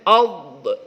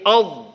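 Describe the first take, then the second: First: The final consonant bounces with a small echo. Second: The final consonant is held without bouncing. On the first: The speaker calls it wrong. "Nggak boleh ad, ad, ad. Nggak boleh" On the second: The speaker calls it right. "ad ditahan seperti itu"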